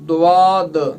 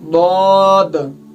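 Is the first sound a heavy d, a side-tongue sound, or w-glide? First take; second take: w-glide; side-tongue sound. First: The first sound has a w-glide after it. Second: The first sound uses the tongue's side edge. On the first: The speaker calls it wrong. "उसमें वाह की वो आवाज़ निकालते हैं" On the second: The speaker calls it right. "ज़ुबान के बगली किनारे को ऊपर के दाढ़ों की जड़ से टकराना है"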